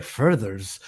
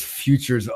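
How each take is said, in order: First: "furthers", as if a French word; misread French-like word. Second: Said in the usual way. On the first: Shown as a demonstration. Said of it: "some sort of French word". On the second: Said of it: "I knew that was futures".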